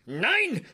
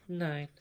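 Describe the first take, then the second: First: The word is yelled loudly and forcefully. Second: The word is said calmly at normal volume. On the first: The speaker calls it right. "It's always, ... You can only speak German if you yell it" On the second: The speaker calls it wrong. "it's never said like that in German. You don't just sit around and go"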